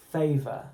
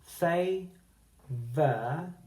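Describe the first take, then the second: First: Said in the usual way. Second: Favour stretched with a rising tune; slow careful favour. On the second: Shown as a demonstration. Teacher modelling favour slowly for the class. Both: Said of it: "listen carefully to the last syllable".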